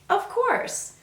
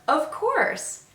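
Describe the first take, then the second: No difference in how they are said.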